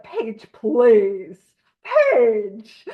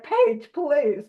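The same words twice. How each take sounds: First: "Page, please" in a louder, put-on voice that stretches "please"; mimicking a pronunciation. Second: Said in the usual way. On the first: Teasing a friend about how she pronounced "Page, please", loud mock copy. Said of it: "how you pronounced it was like". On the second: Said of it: "a lot of people that are like".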